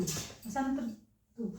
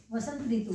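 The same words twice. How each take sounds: First: Vasant ऋतु said very slowly and softer, each syllable stretched; slow, drawn-out demo. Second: Said in the usual way. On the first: Shown as a demonstration. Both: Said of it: "देखो यहाँ पे वसंत".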